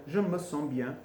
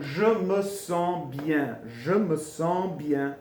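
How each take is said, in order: First: Said in the usual way. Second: "je me sens bien" very slow, word by word; stretched, careful "je me sens bien"; slow teaching demo. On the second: Shown as a demonstration. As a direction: model "je me sens bien" slowly for learners. Teacher models phrase slowly.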